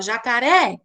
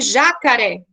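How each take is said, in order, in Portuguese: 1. A tônica está na última sílaba. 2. A tônica está na primeira sílaba. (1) "Você fala jacaré. Então, a última sílaba ela fica mais" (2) "o já seria mais forte, seria uma proparoxítona"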